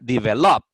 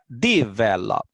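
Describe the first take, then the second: First: The stress is on the last syllable. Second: The stress is on the first syllable. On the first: "Y si lo pongo en la última sílaba diría develop" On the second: "Si la pongo en la primera sílaba diría develop"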